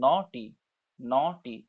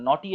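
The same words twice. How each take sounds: First: "নটি" split into ন and টি; syllable by syllable. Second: Said in the usual way. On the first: Shown as a demonstration. Teacher showing two syllables, "নটি" in two beats. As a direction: hold ন, then a separate টি. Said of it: "দুটো syllable". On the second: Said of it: "একসাথে বেরোচ্ছে না কিন্তু".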